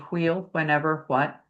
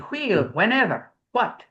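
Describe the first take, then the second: First: The wh sounds light, in an English accent. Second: The wh sounds strongly aspirated, in a Scottish accent. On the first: "English would be" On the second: "In the Scots would be ... It's real strong"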